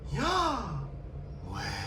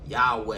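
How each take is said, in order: First: The word is said like an airy breath. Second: The word is said in an ordinary, fully voiced way. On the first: The speaker calls it right. "That's the sound you make when you breathe" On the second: The speaker calls it wrong. "is not pronounced as I just uttered it"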